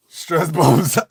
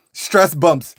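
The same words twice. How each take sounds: First: Laughing through the words stress bumps. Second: Said in the usual way. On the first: Shown as a demonstration. Comic repeating his own excuse, laughing through it. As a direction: breaks into a laugh mid-phrase.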